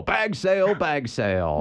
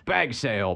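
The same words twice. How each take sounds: First: Booming announcer chant, rising high; wrestling promo. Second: Said in the usual way. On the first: Shown as a demonstration. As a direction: hype it like a ring announcer. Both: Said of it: "I kinda wanna do the wrestling voice".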